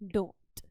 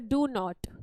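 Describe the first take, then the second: First: The two words are merged into one. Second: There is a pause between the two words.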